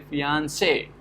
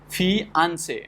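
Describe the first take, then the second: First: The stress is on the last syllable. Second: The stress is on the second syllable. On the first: "so say is getting stressed" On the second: "where the second syllable is getting stressed"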